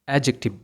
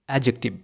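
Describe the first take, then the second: The two takes are said the same way.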